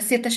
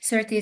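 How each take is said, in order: First: The name is said with Hungarian pronunciation. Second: The name is said with British English pronunciation. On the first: "the Hungarian pronunciation of his name" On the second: "the British pronunciation of his name"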